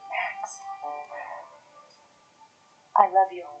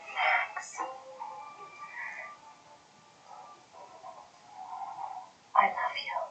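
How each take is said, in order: First: It is said flatly, without feeling. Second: It is said with feeling, sounding sincere.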